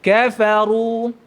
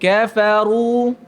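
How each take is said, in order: No difference in how they are said.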